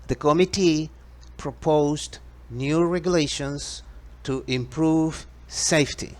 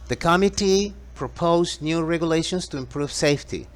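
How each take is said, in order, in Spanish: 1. La oración se dice a un ritmo más lento. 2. La oración se dice a un ritmo más rápido.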